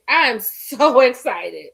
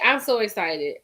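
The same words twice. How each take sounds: First: Louder, slower, laughing mid-word; laughing excitement. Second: Said in the usual way. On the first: Real, not acted. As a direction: let a laugh break through the excitement.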